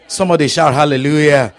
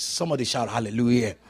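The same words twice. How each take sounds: First: Shouted call to the congregation; loud rallying call. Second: Said in the usual way. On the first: Real, not acted. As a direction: belt it out to rouse the crowd. Repeats the call much louder.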